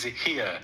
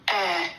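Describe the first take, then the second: First: The word starts with a pronounced h sound. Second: The word starts with no h sound. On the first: The speaker calls it wrong. "I'm saying Diddy's here because it's H E I R" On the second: The speaker calls it right. "but the H is silent"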